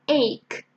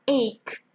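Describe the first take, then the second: Both takes have the same delivery.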